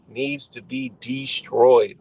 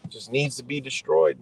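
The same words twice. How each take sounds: First: Slow, DESTROYED stretched out with weight, loud; emphatic repeat. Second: Said in the usual way. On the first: Real, not acted. Venting about society, DESTROYED said slow and emphatic. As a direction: lean hard on DESTROYED, splitting it DE-STROYED.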